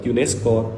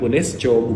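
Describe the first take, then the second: First: The word is said with English sounds. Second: The word is said with Indonesian sounds. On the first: The speaker calls it right. "tetap; menyesuaikan dengan asal" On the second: The speaker calls it wrong.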